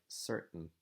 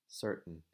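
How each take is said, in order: The two takes are said the same way.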